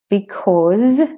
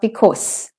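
First: The final sound is a buzzing Z. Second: The final sound is a hissing S. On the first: The speaker calls it right. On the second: The speaker calls it wrong.

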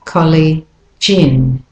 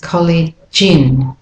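No difference in how they are said.

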